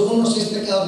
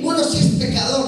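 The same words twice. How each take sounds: First: A touch lower, a mild mimic of the teenager; imitating the neighbour. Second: Bright exclamation. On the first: Priest mimics how his young neighbour confessed it, lightly. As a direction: echo the boy's sheepish admission. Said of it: "porque él me lo dijo así, con su". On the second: Retold or imitated. Preacher voicing a retreat-goer who comes back eager. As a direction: blurt it out like a happy convert. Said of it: "uno, uno dice".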